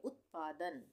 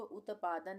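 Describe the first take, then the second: First: उत्पादन as ut-paa-dan, त closed with no vowel; correct half t. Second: उत्पादन wrongly said u-ta-paa-dan; wrong full t. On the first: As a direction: stop on the त of उत्पादन, then पादन. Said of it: "इसको हम पढ़ेंगे उत्पादन". (उत्पादन में आधा त, "उत्-पादन") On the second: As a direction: add a vowel after त in उत्पादन, u-ta-paadan. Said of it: "इसको उत्पादन नहीं पढ़ेंगे". (उत्पादन में पूरा त, "उतपादन" जैसा गलत उच्चारण) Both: Shown as a demonstration.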